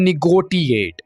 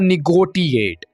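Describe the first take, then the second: First: The middle consonant is a hard t sound. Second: The same.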